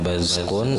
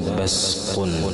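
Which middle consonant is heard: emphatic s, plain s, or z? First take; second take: z; plain s. First: The middle consonant is a z. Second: The middle consonant is a plain s. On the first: "dan zai"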